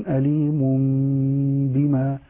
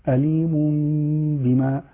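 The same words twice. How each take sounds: Both takes have the same delivery.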